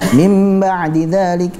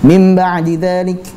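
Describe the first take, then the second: First: The nasal sound before ba is held long. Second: The nasal sound before ba is cut short. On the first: The speaker calls it right. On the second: The speaker calls it wrong. "kadar gunnahnya dikurangi sehingga membacanya seperti ini"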